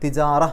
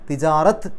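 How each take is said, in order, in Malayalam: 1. വാക്ക് മൃദുവായ h ശബ്ദത്തിൽ അവസാനിക്കുന്നു. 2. വാക്ക് t ശബ്ദത്തിൽ അവസാനിക്കുന്നു. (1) "സുക്കൂനുള്ള ഹാ ആക്കിയിട്ടാണ് പറയേണ്ടത്" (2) "തിജാറത്ത് എന്നല്ല"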